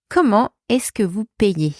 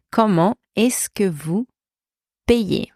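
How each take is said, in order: First: Said in the usual way. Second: Measured, pausing before the last word. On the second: Shown as a demonstration. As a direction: spell out the phrase by chunks. Teacher breaks down model phrase.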